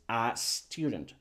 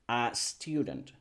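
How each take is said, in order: No difference in how they are said.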